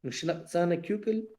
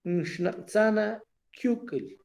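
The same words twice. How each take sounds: First: "Nshnatzana Kyukel" repeated softer, falling to a hush; "Nshnatzana Kyukel" repetido más suave. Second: "Nshnatzana Kyukel" said slowly as a question, pitch raised; "Nshnatzana Kyukel" en tono de pregunta, lento; questioning intonation. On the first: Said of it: "la misma voz lo marca". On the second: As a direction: ask "Nshnatzana Kyukel" with the voice alone, slow and higher. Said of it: "ya que la entonación de la voz lo marca". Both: Shown as a demonstration.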